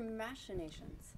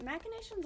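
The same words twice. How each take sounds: First: "machinations" as MASH-uh-NAY-shunz; "machinations" with CH softened to SH; SH pronunciation. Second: "machinations" as MAK-uh-NAY-shunz; "machinations" with CH sounded as K; hard K pronunciation. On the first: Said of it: "I've always pronounced it as machinations". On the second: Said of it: "Is it machinations or machinations?". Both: Shown as a demonstration.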